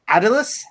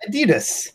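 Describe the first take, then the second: First: It is pronounced the British way. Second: It is pronounced the American way. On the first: "Owen McDonald pronounced it like Adidas" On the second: "I always pronounce it Adidas"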